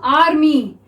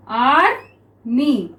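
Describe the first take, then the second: First: Said in the usual way. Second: Slow army, split as "आर - मी"; syllable by syllable. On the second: Shown as a demonstration. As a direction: pause between the two syllables of army. Word broken up while writing it.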